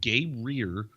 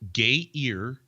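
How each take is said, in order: First: It sounds like gay-rear. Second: It sounds like gay-ear.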